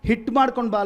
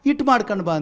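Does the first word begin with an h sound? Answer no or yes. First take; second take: yes; no. First: The first word starts with an h sound. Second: The first word starts with a vowel, no h. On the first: It is the standard form. "ಅದು correct ಪದ" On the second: It is the village way of saying it. "ನಮ್ಮ ಹಳ್ಳಿ ಕಡೆ ಏನು ಮಾಡ್ತೀವಿ"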